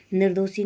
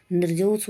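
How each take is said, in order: First: निर्दोषी ending in long ee; wrong form. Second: निर्दोष closed on its sibilant; no ee after निर्दोष; correct form. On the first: Teacher showing the error, निर्दोषी with final ee. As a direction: finish निर्दोषी on shee. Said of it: "नहीं होता". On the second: Teacher correcting the word, निर्दोष without final ee. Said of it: "होता है". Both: Shown as a demonstration.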